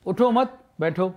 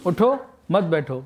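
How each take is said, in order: First: اٹھو مت joined and rising, a break, then بیٹھو; pause after مت. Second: اٹھو raised and cut off, then مت بیٹھو as one falling phrase; pause after اٹھو. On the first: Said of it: "اور یہی جملہ ایک اور انداز سے میں کہہ رہا ہوں". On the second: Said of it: "اور یہی جملہ ایک اور انداز سے". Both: Shown as a demonstration.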